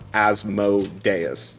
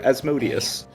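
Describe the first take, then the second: First: The ending 'Deus' is said as a separate part. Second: The syllables run together as 'Asmode-us'. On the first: The speaker calls it right. "Deus is separate instead of as mode" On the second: The speaker calls it wrong. "I cringe slightly when I hear Asmodeus"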